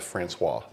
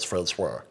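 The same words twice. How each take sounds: First: It is said in a normal speaking voice. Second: It is said in a special put-on voice.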